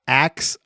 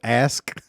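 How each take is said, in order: First: The word ends with a ks sound. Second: The word ends with an sk sound. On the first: "He says ax ax a question" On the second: "instead of ask"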